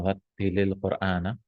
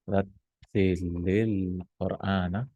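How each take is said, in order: First: Said in the usual way. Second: Rattilil Qur'ana drawn out slow and soft, like recitation; recited slowly. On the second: Shown as a demonstration. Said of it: "so recite the Quran".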